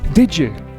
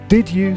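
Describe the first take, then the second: First: The d and y merge into a j sound. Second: The d and y sounds stay separate.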